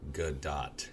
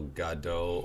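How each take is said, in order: First: The name ends with a clear T sound. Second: The name ends without a T sound. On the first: The speaker calls it right. "you should be saying Gal Gadot" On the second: The speaker calls it wrong. "If you're not pronouncing the letter T, you're making a mistake"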